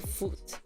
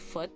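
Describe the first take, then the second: First: The vowel is a long oo sound. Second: The vowel is a short sound. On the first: It sounds like a foreign accent. The speaker calls it wrong. "another accent who would say foot" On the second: It sounds like the usual pronunciation. The speaker calls it right. "instead of foot"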